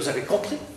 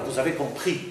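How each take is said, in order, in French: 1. La phrase porte un accent d'insistance marqué. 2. L'accent tombe de façon neutre sur la dernière syllabe. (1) "Mais si je veux insister, je veux dire" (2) "Normalement, je dois dire, vous avez compris, avec accent sur le i"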